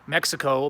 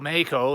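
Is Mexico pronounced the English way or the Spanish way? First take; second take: English; Spanish. First: It is pronounced with an English accent. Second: It is pronounced with a Spanish accent.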